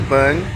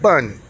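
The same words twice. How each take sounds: First: The pitch dips low and then rises. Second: The pitch falls sharply from high to low. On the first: It means foundation or basic. "bun in the third" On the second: It means stupid or foolish. "bun in the fourth tone"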